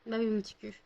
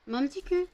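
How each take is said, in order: First: Said in the usual way. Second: Higher, sing-song coo at a pet; cooing pet talk. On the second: Real, not acted. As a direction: coo it like talking to a puppy. Talking affectionately to her dog. (voix câline pour parler au chien)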